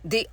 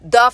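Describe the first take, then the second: First: The word ends in a long 'ee' vowel. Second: The word ends in a short 'uh' vowel. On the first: "ভাওয়েলের আগে দা এর উচ্চারণ হবে দি" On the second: "আর কনসোনেন্টের আগে দা"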